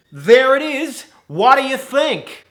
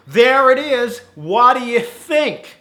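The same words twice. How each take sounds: First: High, loud, patchy American manager; wavering American accent. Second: High, loud, stronger American manager; American accent. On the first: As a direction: proudly reveal it in unsteady mock American. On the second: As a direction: present it in broad mock American, slowly. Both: Acted. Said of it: "His accent goes in and out".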